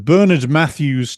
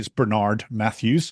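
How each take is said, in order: First: It is said in a British accent. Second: It is said in an American accent.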